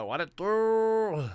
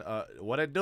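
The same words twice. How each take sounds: First: High, slow, put-on homie voice; goofy high voice. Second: Said in the usual way. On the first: Greeting his friend in a silly high voice.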